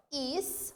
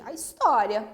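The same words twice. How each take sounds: First: "his-tó-ri-a" in separate syllables with gaps. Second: Said in the usual way. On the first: Shown as a demonstration. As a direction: break "his-tó-ri-a" into four spaced beats. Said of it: "separando em sílaba".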